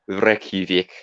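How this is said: It is said with an Icelandic accent. "if if we were to put more of the accent in"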